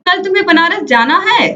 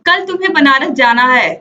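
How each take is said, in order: First: It is said with a questioning tune. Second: It is said as a flat statement or command. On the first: The speaker does not know and is asking. "दूसरा वाक्य प्रश्न सूचक है" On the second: The speaker tells the listener what to do. "पहला वाक्य आदेश सूचक है"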